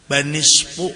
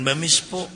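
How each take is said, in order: First: The second syllable begins with an n sound. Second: The second syllable begins with an m sound. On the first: The speaker calls it right. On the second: The speaker calls it wrong. "jangan bamisfu"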